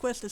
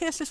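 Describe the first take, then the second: First: The name starts with a kw sound. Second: The name starts with a plain k sound. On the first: The speaker calls it wrong. "when I thought it was pronounced Quistis" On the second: The speaker calls it right. "who I now know is pronounced Kistis"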